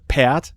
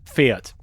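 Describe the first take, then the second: First: The word starts with a plain p sound. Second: The word starts with a pf sound. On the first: This is the Westphalian dialect form. "they would uh, not pronounce the F, so for them it's a Pferd" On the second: This is the standard German form. "that is Pferd in um, High German"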